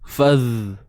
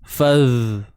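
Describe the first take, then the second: The two takes are said the same way.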